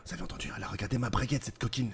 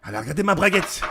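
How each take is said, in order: First: Soft, rapid, conspiratorial aside; hushed excitement. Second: Thrilled, voiced out loud and emphatic; open excitement. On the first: Pretend. Smitten man confiding to his captain, hushed excitement. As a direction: rush it out under your breath, thrilled. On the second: Smitten man repeating news to his captain, open excitement. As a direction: announce it openly, unable to contain the thrill.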